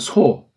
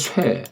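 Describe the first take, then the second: First: The vowel is a plain 'o' sound. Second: The vowel is the 'oe' sound. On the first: The speaker calls it right. "우린 소라고 하세요" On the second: The speaker calls it wrong. "이걸 누가 쇠 그래요"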